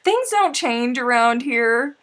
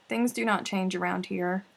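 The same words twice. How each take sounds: First: Higher, louder, slow declaration; loud, slow teasing to the returning friend; loud slow tease. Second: Plain level, "do not" spelled out; "do not" given separate weight, at normal volume; stressed not. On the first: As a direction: proclaim it grandly. Teasing welcome. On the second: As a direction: hit "not" in "do not". Repeated softer. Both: Real, not acted.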